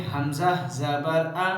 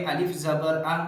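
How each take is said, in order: First: "हमज़ा" named in place of alif, then short "आ"; correct letter name. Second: "अलिफ" named in place of hamza, then "आ"; wrong letter name. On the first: Teacher correcting the alif reading, "हमज़ा" as letter name. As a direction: spell it out evenly as "हमज़ा ज़बर आ". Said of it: "बल्कि इसको पढ़ेंगे". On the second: Teacher showing what not to read, "अलिफ" as letter name. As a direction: spell it as "अलिफ ज़बर आ", calling the letter alif. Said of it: "इसको ऐसे नहीं पढ़ेंगे". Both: Shown as a demonstration.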